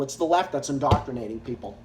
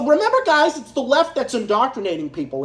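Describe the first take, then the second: First: Much softer, lower and fast, a muttered echo; quick sarcastic aside to himself; mock mutter. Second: Mock-earnest sarcasm to the viewers; "it's the left that's indoctrinating people", said as if he believed it; sneering fake agreement; sarcastic. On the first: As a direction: throw the line away under the breath, mocking. Repeats sarcastic claim, muttered. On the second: Sarcastic claim about the left.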